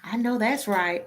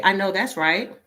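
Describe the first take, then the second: First: "I know that's right" said with a hint of a borrowed twang; mock put-on twang. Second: Said in the usual way. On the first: Mimicking a coworker who puts on a twang with her. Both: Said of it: "Why you can't just say".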